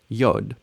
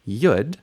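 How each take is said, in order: First: It uses the standard Hebrew pronunciation. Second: It uses the Ashkenazi or Yiddish pronunciation. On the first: "Hebrew, the letter Yod"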